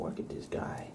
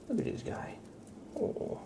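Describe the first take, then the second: First: Breathy unvoiced whisper, much softer. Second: Squeaky pet voice. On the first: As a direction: murmur it to the cat as if not to wake him. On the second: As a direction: coo it way up high to the cat. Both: Real, not acted. Whispering, then cooing at cat.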